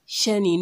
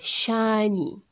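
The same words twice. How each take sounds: First: The first vowel is short. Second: The first vowel is lengthened. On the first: The speaker calls it wrong. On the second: The speaker calls it right.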